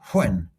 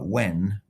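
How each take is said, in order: First: It begins with a breathy, aspirated W sound. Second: It begins with a plain W sound. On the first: "with a breathing on it" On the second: "as if it was just an ordinary W"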